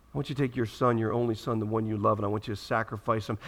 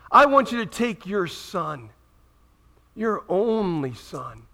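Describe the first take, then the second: First: Hushed retelling. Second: Slow, weighty "I want you to take your son, your only son"; slow solemn command. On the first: Preacher repeating God's words to congregation, hushed. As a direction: lower and softer "I want you to take your son, your only son". Command retold hushed and low. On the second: Preacher voicing God to Abraham, slow and solemn. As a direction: lean on "only", draw it out. God's command, first telling. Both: Acted.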